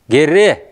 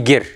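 First: The word ends with a final vowel sound. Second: The word ends with a consonant sound. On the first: The speaker calls it right. "Произносится вот «гере»" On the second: The speaker calls it wrong. "а не «гер»"

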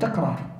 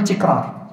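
First: The first vowel is a (takrar). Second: The first vowel is i (tikrar). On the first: The speaker calls it right. "بل تقول تكرار" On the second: The speaker calls it wrong. "من الخطأ أن تقول تكرار"

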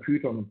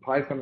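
First: Python is pronounced with a German pronunciation. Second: Python is pronounced with an English pronunciation.

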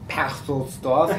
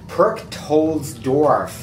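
First: The name is said with German pronunciation. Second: The name is said with English-style pronunciation. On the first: The phone does not recognize the name. The speaker calls it wrong. "keine Idee, was es ist" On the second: The phone recognizes the name. The speaker calls it right. "Ich muss sagen Perchtoldsdorf. Und dann versteht es"

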